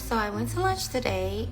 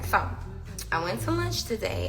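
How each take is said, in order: First: It is said in a put-on voice. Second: It is said in her normal voice.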